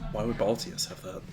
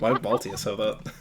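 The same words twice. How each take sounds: First: It is said in a put-on character voice. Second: It is said in the speaker's normal voice.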